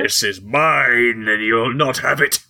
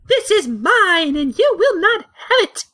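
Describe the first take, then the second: First: It is said in a normal voice. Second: It is said in a feminine voice.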